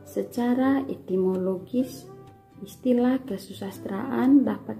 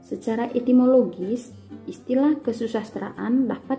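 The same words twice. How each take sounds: First: It is read at a slow pace. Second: It is read at a moderate pace. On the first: The speaker calls it wrong. "dengan lambat" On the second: The speaker calls it right. "bacalah dengan tempo yang pas-pas"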